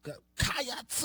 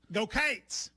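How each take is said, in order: First: "Go Cats" with Cats stretched into two syllables, kai-ahts, rising; drawn-out Cats. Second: "Go Cates" with a long ay vowel in Cates, one syllable; Kentucky Go Cates. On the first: Co-host trying the cheer, Cats stretched into two syllables. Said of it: "You're adding a syllable". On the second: Host teaching co-host the Kentucky cheer, Cates with an ay vowel. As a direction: say "Cates" like a local Kentucky fan. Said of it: "in Kentucky, we go". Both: Shown as a demonstration.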